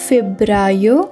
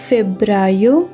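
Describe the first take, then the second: The two takes are said the same way.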